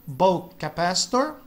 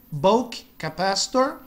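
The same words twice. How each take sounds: The two takes are said the same way.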